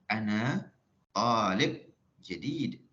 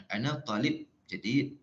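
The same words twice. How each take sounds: First: "Ana talib jadid" slow, with long "ta" in "talib" and stretched "did" in "jadid"; Arabic tanghim. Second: "Ana talib jadid" in quick, even Malay intonation; Malay-accented Arabic. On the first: Teacher models tanghim Arabi, slow stretched "Ana talib jadid". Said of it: "Baru bunyi tanghim betul. Tanghim Arabi". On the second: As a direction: keep "talib" short and unstressed, Malay-style Arabic. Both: Shown as a demonstration.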